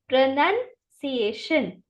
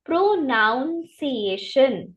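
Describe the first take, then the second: First: प्रोनंसिएशन slowly, pro-nun-see-AY-shun; slow model pronunciation. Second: प्रोनाउंसिएशन with a full "nounce" sound; mispronounced on purpose. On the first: Teacher leads class repeating the word slowly. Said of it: "मेरे साथ बोलिए". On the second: Teacher shows students the common mistake. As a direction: say प्रोनाउंसिएशन the wrong way, like pronounce. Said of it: "इसको कैसे गलत बोला जाता है". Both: Shown as a demonstration.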